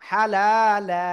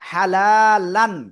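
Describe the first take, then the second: First: The word ends with a long a vowel. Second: The word ends with an n sound. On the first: "লান না বলে বলবো লা" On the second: "লাম আলিফ দুই জবর লান"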